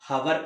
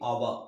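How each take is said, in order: First: The word begins with an audible h sound. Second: The word begins directly with a vowel sound. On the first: The speaker calls it wrong. "హవర్ కాదండి" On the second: The speaker calls it right. "హెచ్ is a silent"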